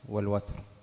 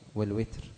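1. أول حرف صائت في watr هو 'a'. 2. أول حرف صائت في الوتر هو 'i'. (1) "بالفتح" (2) "بكسر الواو"

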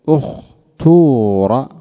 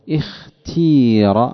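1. الحركة الطويلة بعد التاء ضمة خالصة. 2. الحركة الطويلة بعد التاء كسرة خالصة. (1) "ويجوز أن تقول اختور" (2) "والكسر نحو اختير"

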